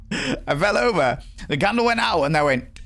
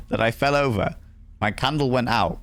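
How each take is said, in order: First: Giggling retelling. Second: Said in the usual way. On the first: Real, not acted. Streamer laughs at falling over in the game, giggling. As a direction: squeak it out through giggles.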